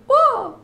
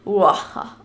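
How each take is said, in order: First: Much higher, louder squealing Uah; creature cry. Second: Wrong creature cry. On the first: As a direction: shriek a high little Uah. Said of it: "Es macht so Uah". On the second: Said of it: "mein Mi macht bestimmt nicht Uaha". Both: Shown as a demonstration.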